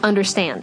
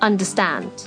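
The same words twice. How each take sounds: First: American accent, 'stand' vowel wide and nasal. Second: British accent, 'stand' vowel open with dropped jaw.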